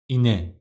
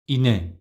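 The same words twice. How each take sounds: The two takes are said the same way.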